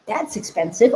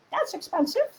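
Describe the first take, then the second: First: Said in the usual way. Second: High, soft squeak; little voice. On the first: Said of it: "some of you may be thinking". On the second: Acted. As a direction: say it as a tiny nagging inner voice. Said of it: "programming from this little one".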